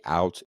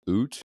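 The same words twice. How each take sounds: First: Said in the usual way. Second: Canadian "oot", oo vowel for "out"; Canadian accent. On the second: Shown as a demonstration. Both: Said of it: "accent where people say".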